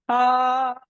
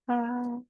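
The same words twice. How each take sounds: First: The vowel is loud, forceful and strongly vibrating. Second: The vowel is soft, pretty and without vibration. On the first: The speaker calls it right. "Mets-toi en colère" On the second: The speaker calls it wrong. "c'est joli, c'est sympa, c'est mignon, tout ça, mais là, je fais rien bouger"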